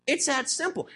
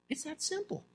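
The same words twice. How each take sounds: First: Said in the usual way. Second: Much softer, higher-pitched aside; hushed, lifted little aside. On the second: Real, not acted. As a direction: drop it almost under your breath. Preacher drops voice for aside.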